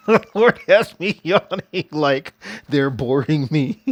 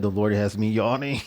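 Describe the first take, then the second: First: Laughing through the words, slow, louder and higher. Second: Said in the usual way. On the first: Real, not acted. Telling her viewers how the Lord makes her yawn, laughing. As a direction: giggle it out, tickled by the idea.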